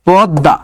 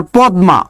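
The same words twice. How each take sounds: First: পদ্মা with a silent m, as "podda"; pause-stopped "pod-da" for পদ্মা; correct pronunciation. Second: Said in the usual way. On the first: Shown as a demonstration. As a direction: say পদ্মা with a doubled d, no m sound. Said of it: "এটা কি হবে বলেন তো". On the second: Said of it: "তাহলে এটা কি হবে বলেন তো".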